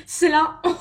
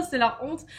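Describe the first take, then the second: First: Bursts out laughing, much louder; laughing in embarrassment. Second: Said in the usual way. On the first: Real, not acted. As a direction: laugh through the words in shame.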